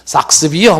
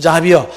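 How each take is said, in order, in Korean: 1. 이 이름은 's' 소리로 시작해요. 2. 이 이름은 'j' 소리로 시작해요. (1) "삭스비어 뭐 이렇게 발음하기도 하고" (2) "그런데 자비어"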